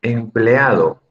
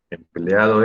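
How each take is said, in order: First: Said in the usual way. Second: Empleado drawn out slowly, syllable by syllable; slow teacher's model of Empleado. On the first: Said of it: "Empleado es hiato". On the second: Shown as a demonstration. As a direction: stretch Empleado out slowly to show the hiato.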